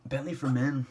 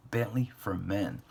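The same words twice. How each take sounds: First: Higher and louder reveal; excited announcement. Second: Said in the usual way. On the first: Shown as a demonstration. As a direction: announce it with a flourish.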